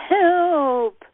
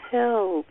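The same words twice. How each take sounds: First: "help" cried out high and loud, stretched and falling; primal scream. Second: Said in the usual way. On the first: Shown as a demonstration. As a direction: let the scream burst out of you. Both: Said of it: "let that scream come up".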